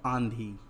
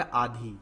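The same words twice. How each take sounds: First: आंधी with the long aa through the nose; आंधी as "aandhi"; nasalized vowel. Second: आधी with a purely oral long aa; missing nasal. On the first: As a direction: put the nasal into आंधी before the dh. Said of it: "क्या है". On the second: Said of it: "लेकिन यहाँ आधी नहीं है". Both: Shown as a demonstration.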